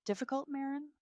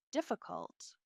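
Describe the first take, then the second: First: High-pitched incredulous echo of 'difficult'; wounded disbelief. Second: Hushed, delicately falling 'difficult'; pointed euphemism. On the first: Wife answering her mother-in-law, wounded disbelief. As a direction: throw the word back as a hurt question. Wife echoes the accusation back. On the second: Mother-in-law reporting a complaint, pointedly delicate. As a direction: let the word drop after a pause. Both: A narrator's reading.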